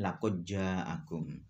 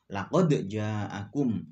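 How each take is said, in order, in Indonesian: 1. Bunyi d menyatu dengan j yang mengikutinya. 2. Bunyi d dilepaskan dengan jelas disertai pantulan. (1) "tidak boleh" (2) "harus dibaca kolkolah"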